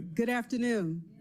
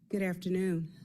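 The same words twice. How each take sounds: First: The greeting is said with excitement. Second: The greeting is said in a flat way.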